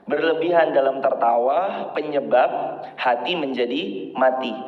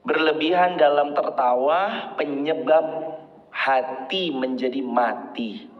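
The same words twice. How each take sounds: The two takes are said the same way.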